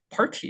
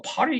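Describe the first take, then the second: First: "party" with a clear T sound; T pronounced. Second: "party" with the T softened into an R-like flap; rolled tongue. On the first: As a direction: keep the T audible in "party". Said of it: "party 이렇게 어렵습니다". (T를 살린 "party") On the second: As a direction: roll the tongue through "party", no crisp T. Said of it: "막 혀를 굴린다고". (혀를 굴려 T를 흘린 "party") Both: Shown as a demonstration.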